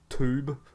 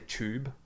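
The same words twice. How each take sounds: First: The word begins with a plain T sound. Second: The word begins with a CH sound. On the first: This is how people from the other country say it. "they like say it as a T" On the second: This is how the speaker's own group says it. "we say it as C H"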